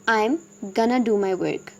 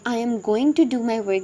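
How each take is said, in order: First: Going to is blended into one short word. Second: Going to is said as two full words. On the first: "native speakers किस तरीके से बोलते हैं" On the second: "हम इसकी बजाय I am going to do my work भी कह सकते हैं"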